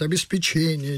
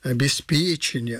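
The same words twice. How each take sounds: First: The stress falls on the syllable che. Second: The stress falls on the syllable pe. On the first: The speaker calls it wrong. "с ударением на «че» говорят «обеспечение». Неправильно" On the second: The speaker calls it right. "С ударением на «п» – обеспечение"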